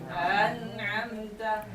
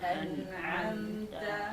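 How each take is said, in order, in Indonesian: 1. Vokal pertama dipanjangkan sebelum n. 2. Vokal pertama tetap pendek sebelum n.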